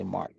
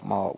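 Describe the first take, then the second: First: "Mark" with a clear r at the end; non-Southern Mark. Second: "Mark" as mɔ, r dropped, low and soft; Southern Mark. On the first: Streamer shows the way they don't say Mark. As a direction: say "Mark" with a hard r, not the Southern way. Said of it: "We don't say Mark". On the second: Streamer shows how Southerners say Mark. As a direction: drawl "Mark" as maw, no r. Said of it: "We say Mark". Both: Shown as a demonstration.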